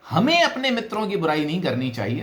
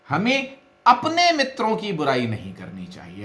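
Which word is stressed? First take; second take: हमें; अपने. First: The stress falls on the word हमें. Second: The stress falls on the word अपने. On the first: Other people may speak ill of their friends. "दूसरे करें तो कोई बुराई नहीं है" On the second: One may speak ill of other people's friends. "यदि आप अपने पर एम्फेसिस देंगे"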